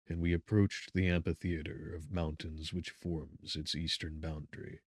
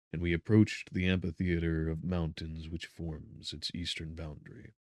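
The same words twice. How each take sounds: The two takes are said the same way.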